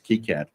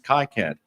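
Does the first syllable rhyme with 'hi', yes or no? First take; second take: no; yes. First: The first syllable does not rhyme with 'hi'. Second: The first syllable rhymes with 'hi'. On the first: The speaker calls it right. "but apparently it's" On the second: The speaker calls it wrong. "I've seen Wi-Fi, I've seen Hi-Fi, so I thought it was"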